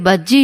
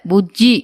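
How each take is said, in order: First: பஜ்ஜி said with a plain "ba" sound, as the aunt says it; wrong name quoted. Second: புஜ்ஜி with a clear "bu", rising at the end; correct name. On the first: Wife quoting the aunt's wrong name பஜ்ஜி with "ba". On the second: Wife correcting the aunt, புஜ்ஜி with a clear "bu". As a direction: stress the "bu" in புஜ்ஜி to set the aunt right. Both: Shown as a demonstration. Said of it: "என் தம்பி பேரு பஜ்ஜி இல்ல".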